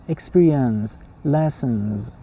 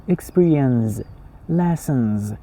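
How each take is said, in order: Both takes have the same delivery.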